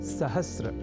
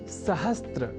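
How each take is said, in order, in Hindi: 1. इसे र से पहले त के बिना बोला जाता है। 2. इसे र से पहले त के साथ बोला जाता है। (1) "और वह शब्द है सहस्र" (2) "सहस्त्र इस रूप में न केवल लिखने की ही बल्कि बोलने की भी प्रवृत्ति या कुप्रवृत्ति बढ़ गई है"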